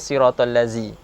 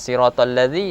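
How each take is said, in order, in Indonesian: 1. Konsonannya bunyi 'z' biasa. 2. Konsonannya bunyi 'th' bersuara.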